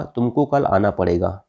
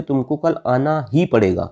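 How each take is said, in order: First: Said in the usual way. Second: "ही" stressed and drawn out; slow down and lean on ही in "आना ही पड़ेगा". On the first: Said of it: "बल लगाना". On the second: Shown as a demonstration. Teacher showing emphatic particle, stressed ही. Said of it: "ऐसे शब्द हैं जिससे बल".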